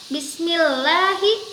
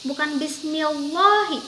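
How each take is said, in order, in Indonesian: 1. L dalam Allah itu tipis dan ringan. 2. L dalam Allah itu tebal dan berat. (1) "harus dibaca tipis atau tarkik"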